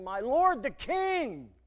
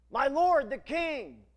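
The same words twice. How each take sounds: First: Calling out, slow and louder; cried out. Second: Loud, high, slow call to the king; crying out. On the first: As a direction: call across the distance to the king. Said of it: "he cried after Saul". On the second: David calling out to King Saul: loud slow cry. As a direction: call it out across the valley. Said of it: "he cries out". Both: Acted.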